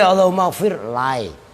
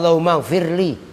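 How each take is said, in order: First: The final l is followed by an ai sound. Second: The final l is followed by an i vowel. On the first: The speaker calls it wrong. "Enggak boleh" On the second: The speaker calls it right. "dibaca kasrah"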